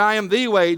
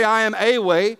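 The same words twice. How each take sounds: First: The word "the" pressed and weighted in "I am the way"; stress on the. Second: Said in the usual way. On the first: Shown as a demonstration. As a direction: lean on "the" in "I am the way". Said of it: "He said". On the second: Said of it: "He didn't say".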